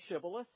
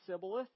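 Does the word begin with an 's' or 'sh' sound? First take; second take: sh; s. First: The word begins with an sh sound. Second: The word begins with an s sound. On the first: The speaker is not from the enemy group. The speaker calls it right. "Just say Shibboleth" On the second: The speaker belongs to the enemy group. The speaker calls it wrong. "you guys can't pronounce the word correctly"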